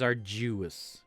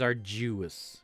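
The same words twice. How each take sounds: First: The d is softened to a j sound. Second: The same.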